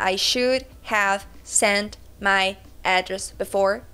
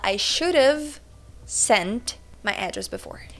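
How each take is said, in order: First: Should and have are said fully and separately. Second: Should and have run together into one reduced form. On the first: "ao invés de falar" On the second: "você fala ... contração ... coladinho"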